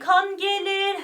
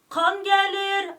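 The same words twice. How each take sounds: First: The e in gelir is soft and standard. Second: The e in gelir is slightly hard and regional. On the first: "şöyle kan gelir her gözyaşımdan gülüm aman değil" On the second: "İstanbul'daki tam Türkçe e'si değil bu ... Hafif sert bir e"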